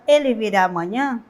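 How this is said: It is said as a direct question. The speaker wants an answer. "quando eu faço a pergunta direta"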